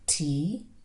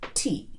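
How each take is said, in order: First: The word has a low tone. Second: The word has a creaky tone. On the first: Lottery. "When we move to the low tone" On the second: To touch. "for the creaky tone"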